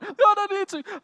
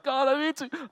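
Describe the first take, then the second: First: Much higher and louder, "God" cried out in anguish; imitating the smoker's plea rising to a louder cry; desperate pleading. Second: Higher, pleading cry of "God, I need to"; imitating a struggling smoker's first strained plea. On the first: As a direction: push the plea to breaking point. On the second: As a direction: beg God, straining upward. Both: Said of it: "He's like".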